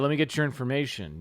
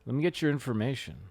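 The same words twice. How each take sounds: First: It is said in a plain, businesslike tone. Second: It is said in a seductive, flirty tone.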